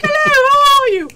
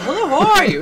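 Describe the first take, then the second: First: Very high, loud hooty falsetto; mock English lady. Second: High, loud cheery hello; bubbly shop greeting. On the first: English woman with baby answers shop girl, mock falsetto gush. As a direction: trill the greeting back, exaggerated. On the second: Retold or imitated. Shop girl greets English customer, loud cheery hello. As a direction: greet her with big pep.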